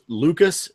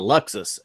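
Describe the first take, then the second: First: The middle consonant is a plain k sound. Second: The middle consonants are k followed by s. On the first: The speaker calls it wrong. "I pronounced it as a Dos Madeiros Lucas" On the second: The speaker calls it right. "It's a Luxus, L U X U S"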